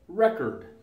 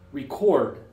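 First: It has the noun pronunciation. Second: It has the verb pronunciation. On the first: It names a thing. "The noun" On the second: It names an action. "The verb"

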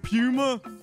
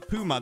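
First: It is said with an English pronunciation. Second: It is said with a Swedish pronunciation.

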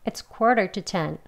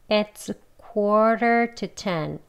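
First: The sentence is said quickly. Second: The sentence is said slowly. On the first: "빨리 해볼게요" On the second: "천천히 하겠습니다"

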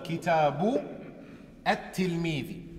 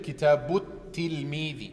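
First: The first word ends on a plain vowel, separate. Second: The first word runs straight into the second. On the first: "Sondern Kitabu at-Tilmidi" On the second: "wenn ich verbinde"

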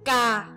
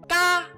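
First: The syllable is said on a low falling tone. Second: The syllable is said on a level tone.

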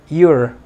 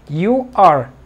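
First: It is contracted into one syllable. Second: It is said as two full words.

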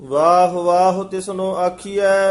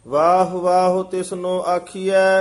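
Both takes have the same delivery.

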